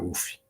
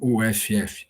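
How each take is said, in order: First: It is said as a single short word. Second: It is spelled out letter by letter. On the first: This is how people in the home state say it. "é dessa forma que falamos" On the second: This is how people from outside the state say it. "para muitas pessoas de fora do estado"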